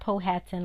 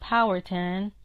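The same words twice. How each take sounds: First: The ending rhymes with Manhattan. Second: The ending does not rhyme with Manhattan. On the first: This is how other people commonly say it. The speaker calls it wrong. "It's not Powhatan like Manhattan" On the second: This is how the elders say the name. The speaker calls it right. "That's how we pronounce it"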